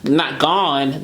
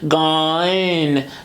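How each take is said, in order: First: The vowel stays a plain single vowel. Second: The vowel glides into a diphthong. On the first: It is the ordinary form of the word. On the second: It is bent to rhyme with another word. "there's a little diphthong in both of them"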